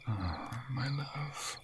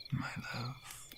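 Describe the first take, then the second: First: Very slow and soft, stretching love; tender sigh. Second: Barely voiced, very soft my love; whispered endearment. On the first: Acted. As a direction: melt into the words, slow and hushed. Tender longing. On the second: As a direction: breathe it out. Tender whisper.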